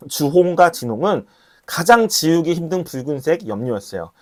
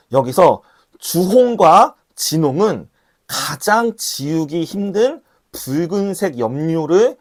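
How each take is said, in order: First: Said in the usual way. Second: Slow, deliberate, each word laid down; slow preacher's emphasis; slow and weighty. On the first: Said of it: "repeats explanation normally". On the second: Shown as a demonstration. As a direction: spell it out slowly so it sinks in. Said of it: "emphatic first reading".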